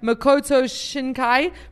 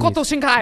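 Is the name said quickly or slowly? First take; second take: slowly; quickly. First: The name is said slowly. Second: The name is said quickly. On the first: The speaker calls it wrong. "You have to say it faster" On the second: The speaker calls it right. "Make it sound Japanese. Yeah, there you go"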